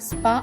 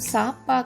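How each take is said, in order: First: The s and p sounds run together without vowel. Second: A vowel separates the s and p sounds. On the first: The speaker calls it right. "స్పా అవుతుంది" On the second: The speaker calls it wrong. "సా పా కాకుండా"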